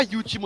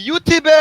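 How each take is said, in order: First: Said in the usual way. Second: Mock German accent, pitched higher. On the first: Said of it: "on dit pas YouTube". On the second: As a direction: put on a caricature Nazi German accent. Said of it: "avec un accent, euh, stéréotypé nazi".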